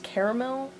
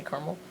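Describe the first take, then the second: First: Caramel said as KER-uh-mel, all three syllables clear; careful "caramel" with a full middle vowel and "mel" at the end. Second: Caramel squeezed to KAR-mul, middle vowel dropped; everyday "caramel" said as "karmel", softer; two-syllable caramel. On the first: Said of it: "it should be pronounced caramel". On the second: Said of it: "so I just say caramel". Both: Shown as a demonstration.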